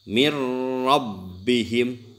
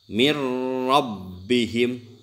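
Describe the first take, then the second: First: The n merges into a doubled r sound. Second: The n merges into a doubled r sound.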